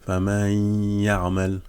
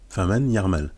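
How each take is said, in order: First: The n merges into the y with lengthened nasality. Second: The n is pronounced clearly before the y. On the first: "c'est un idram Bironna" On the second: "si on lit normalement"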